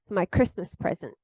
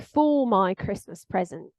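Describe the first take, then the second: First: The word 'for' is reduced to a weak form. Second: The word 'for' is said fully, with its vowel. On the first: The speaker calls it right. "So for is transformed into for" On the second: The speaker calls it wrong. "We don't say for my Christmas present"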